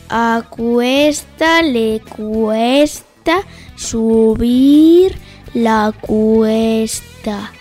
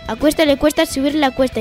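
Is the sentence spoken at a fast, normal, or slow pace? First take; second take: slow; normal. First: It is spoken at a slow pace. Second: It is spoken at a normal pace. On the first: "Cámara lenta o velocidad lenta" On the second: "A velocidad normal"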